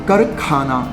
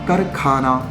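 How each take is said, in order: Both takes have the same delivery.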